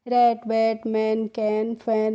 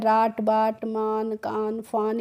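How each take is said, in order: First: The vowel is the 'a' sound of cat. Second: The vowel is an open 'ah' sound. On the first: The speaker calls it right. "कैसे पढ़ना है बच्चों?" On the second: The speaker calls it wrong. "इस तरीके से इन words को नहीं पढ़ना है"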